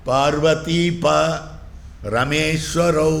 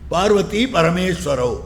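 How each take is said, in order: First: A break falls after 'pa' in the second word. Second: The second word is said whole, without a break. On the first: It names Parvati's lord and Rama's lord. "இப்படி பிரிக்கணும்" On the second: It names Parvati and Parameshvara. "அப்படின்னு அர்த்தம் பண்ணுகிறார்"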